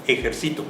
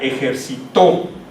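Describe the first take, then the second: First: The stress is on the penultimate syllable. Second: The stress is on the last syllable. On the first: The speaker is exercising something right now. "se convierte en una palabra grave" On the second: Someone exercised in the past. "el sonido fonético está en la última sílaba"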